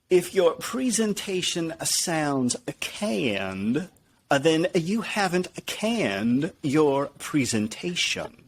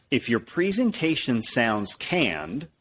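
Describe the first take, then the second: First: Slow, higher-pitched accent impression with stretched words; Zig Ziglar. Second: Said in the usual way. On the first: Shown as a demonstration. Speaker trying a motivational speaker's accent, Zig Ziglar impression. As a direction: draw the line out in an imitated speaker's accent. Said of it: "Let me try it with the Zig Ziglar accent". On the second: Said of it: "I should do it with the Zig Ziglar accent".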